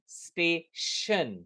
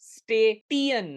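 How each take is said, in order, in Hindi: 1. बीच का 'ti' sh की आवाज़ से बोला जाता है। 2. बीच का 'ti' t की आवाज़ से बोला जाता है। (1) "उसका साउंड श होगा" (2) "नहीं"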